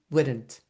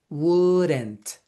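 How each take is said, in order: First: The word is said smoothly and quickly, run together. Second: The word is over-articulated, each part pronounced carefully. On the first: "like kind of more fluent" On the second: "exaggerate it a little bit by saying wouldn't"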